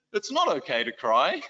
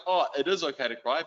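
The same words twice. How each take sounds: First: "not" lifted and leaned on in "It's not okay to cry"; stress on not. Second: "is" lifted and leaned on in "it is okay to cry"; stress on is. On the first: What he actually told the boys, leaning on "not". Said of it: "I essentially said to them". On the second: What he should have told the boys, leaning on "is". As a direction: affirm it, leaning on "is". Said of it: "they would have been like". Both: Retold or imitated.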